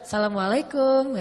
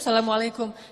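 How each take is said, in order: First: It is said in a flirtatious, suggestive tone. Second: It is said in a plain, ordinary tone.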